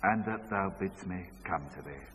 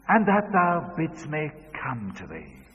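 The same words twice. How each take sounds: First: Lower, softer echo; father's hushed echo; quiet echo. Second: Higher leading line; daughter's prompting line; child leading the verse. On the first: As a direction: repeat it back subdued. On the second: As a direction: prompt it clearly. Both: Retold or imitated. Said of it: "say this after me".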